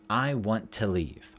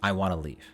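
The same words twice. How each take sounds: First: Each word is said fully and separately. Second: It is said fast with 'want to' reduced.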